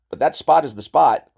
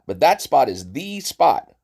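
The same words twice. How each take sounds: First: The word 'the' is not stressed. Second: The word 'the' is stressed.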